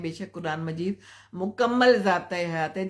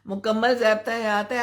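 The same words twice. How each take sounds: First: Said in the usual way. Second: मुकम्मल stressed, higher and louder with a rise; emphatic agreement. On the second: Real, not acted. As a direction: affirm it with conviction. (मुकम्मल पर ज़ोर, ऊँची और तेज़ आवाज़)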